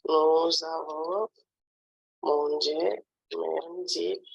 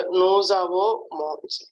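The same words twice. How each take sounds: First: Nous avons drawn out, pause, then mangé; slow dictation. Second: Said in the usual way. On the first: Shown as a demonstration. Teacher repeats the verb form for a pupil, slow dictation. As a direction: stretch it slowly in two parts.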